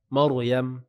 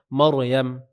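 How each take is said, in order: No difference in how they are said.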